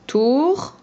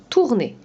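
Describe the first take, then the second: First: "Tourner" as a raised, held tour, long pause, then ner; split into syllables. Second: Said in the usual way. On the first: Shown as a demonstration. Teacher showing a pupil the parts of "Tourner", syllable by syllable. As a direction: break "Tourner" in two after a lifted first syllable. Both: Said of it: "Quand on a enlevé la deuxième syllabe".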